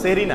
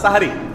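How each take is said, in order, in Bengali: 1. প্রথম স্বরবর্ণটি 'e', যেমন sehri শব্দে। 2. প্রথম স্বরবর্ণটি 'a', যেমন sahari শব্দে। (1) "শব্দটা সেহরি না" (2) "শব্দটা হবে হয় সাহুর আর না সাহারি"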